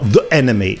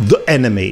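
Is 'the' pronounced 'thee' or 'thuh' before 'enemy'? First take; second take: thuh; thuh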